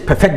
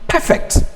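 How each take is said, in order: First: The stress is on the second syllable. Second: The stress is on the first syllable. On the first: It asks someone to make something flawless. "Or if used as a verb, it changes" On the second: It describes something as flawless. "the stress mark automatically remains on the first syllable"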